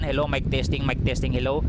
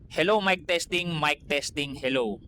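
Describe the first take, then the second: First: Fan noise is clearly heard behind the voice. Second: Fan noise is suppressed behind the voice. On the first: "Ito po yung boses natin mga kaibigan" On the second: "eto na po yung may ah, noise reduction"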